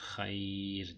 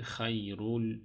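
First: The r is pronounced thin and light. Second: The r is pronounced thick and heavy. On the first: The word ends with a stop. "Bunu ince okuyoruz" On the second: The word runs on into the next. "kalın okurduk"

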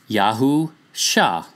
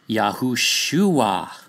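First: The name is said with three syllables. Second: The name is said with four syllables. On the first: "So sound it out, and it's Yahusha" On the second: "there is a wa or u added"

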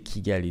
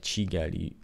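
First: The word begins with a hard k sound. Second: The word begins with a ch sound. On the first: The speaker calls it wrong. "you don't say Kigali" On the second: The speaker calls it right. "it's like Chigali"

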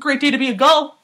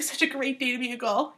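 First: It is said in a hyped, excited way. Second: It is said in a relaxed, casual way.

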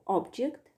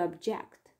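First: The stress is on the first syllable. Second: The stress is on the second syllable. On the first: It is a noun: a thing. "which is a noun" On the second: It is a verb: to disagree. "to object"

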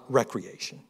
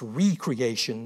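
First: The word begins with a short 'reck' sound. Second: The word begins with a long 'ree' sound. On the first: Leisure or play. The speaker calls it wrong. "not recreation" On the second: Something is created anew. The speaker calls it right. "it's recreation"

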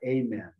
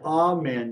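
First: The first vowel sounds like 'ay'. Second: The first vowel sounds like 'ah'. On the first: The speaker calls it wrong. "not amen. There is no A in Hebrew" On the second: The speaker calls it right. "this is why it's amen"

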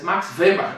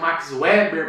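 First: The name is pronounced in a German way. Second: The name is pronounced in a non-German way. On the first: This stays close to the name's native language. The speaker calls it right. "Vamos tentar pronunciar o mais próximo possível da língua materna" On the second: This is how some other people say it. The speaker calls it wrong. "Tem gente que pronuncia Max Weber"

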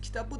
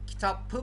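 First: The middle consonant is a soft b sound. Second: The middle consonant is a hard p sound. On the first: The speaker calls it right. "Kitabı diyoruz" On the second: The speaker calls it wrong. "Kitapı mı diyoruz?"

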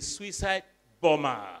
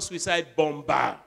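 First: The second b in bomber is silent. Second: The second b in bomber is pronounced. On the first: The speaker calls it right. "the second B is also now silent. It's a suicide bomber" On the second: The speaker calls it wrong. "not suicide bomber"

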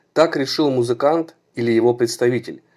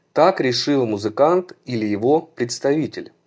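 No difference in how they are said.

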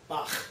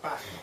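First: The final ch sound is harsh and rough. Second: The final ch sound is soft and light. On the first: This is how Americans say it. "because that's what we say it" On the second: This is how Germans say it. "It's a softer sound, something like Bach"

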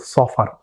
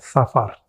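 First: The first s sound is heavy and emphatic. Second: The first s sound is light and plain. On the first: The speaker calls it right. "Menggunakan sot, yaitu Safar" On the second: The speaker calls it wrong. "bukan Safar"

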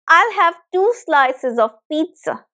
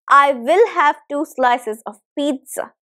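First: 'I will' is contracted to one syllable. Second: 'I will' is said as two full words. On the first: "it becomes I'll" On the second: "you can also say I will"

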